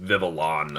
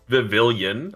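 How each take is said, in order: First: The 'on' follows the L with no extra vowel. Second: An extra 'ee' sound comes before the final 'on'. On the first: The speaker calls it right. "it's just O N, like after the L" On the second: The speaker calls it wrong. "it's not Vivilion"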